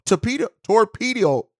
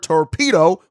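First: Torpedo mangled like tor-pee-dee-ol, slurred and restarted; garbled torpedo, torpedo; tongue-tied. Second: Said in the usual way. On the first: Real, not acted. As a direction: trip over torpedo, ending in a stray l. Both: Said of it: "getting tongue-tied on the word torpedo".

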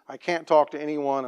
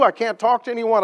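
First: Said in the usual way. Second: High, loud cry of despair; desperate, tearful retelling; tearful plea. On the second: Retold or imitated. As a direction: let it break with helplessness. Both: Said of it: "bawling his eyes out".

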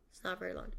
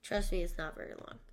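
First: Breathy half-whispered echo of the line; soft unvoiced repeat. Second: Said in the usual way. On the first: Shown as a demonstration. Repeats the line, second softly.

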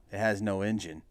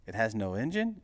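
First: Said in the usual way. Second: ENGINE lifted into a rising question; questioning echo. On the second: Acted. Buyer queries seller's claim, questioning rise on ENGINE. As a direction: echo it back, pitch climbing on ENGINE.

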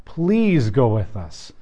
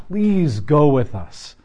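First: Slow, quieter repeat of the plea; a hushed second plea; softer begging. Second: Slow, drawn-out plea; slow earnest begging. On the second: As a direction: beg him not to leave. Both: Retold or imitated. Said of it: "Moses is basically begging God".

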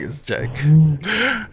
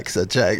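First: "it's a joke" stretched very slowly; drawn-out reassurance. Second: Said in the usual way. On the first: Real, not acted. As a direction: drag out "it's a joke" word by word.

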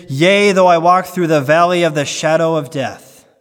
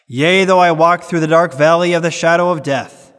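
First: "valley" said evenly, with no word pushed and no "dark"; correct quote, no dark. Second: Mock the misquoters by weighting "dark"; misquote stressing dark. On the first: Shown as a demonstration. Preacher gives the true psalm wording to his congregation, plainly. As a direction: give the true line evenly, without the added "dark". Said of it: "It is". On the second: Preacher mimics churchgoers' misquote, leaning hard on "dark". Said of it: "They will always emphasize the word dark".

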